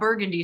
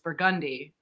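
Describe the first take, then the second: First: It uses the general, non-local form of the name. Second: It uses the local New Orleans form of the name. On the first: The speaker calls it wrong. "it's not Burgundy Street" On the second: The speaker calls it right. "it's Burgundy"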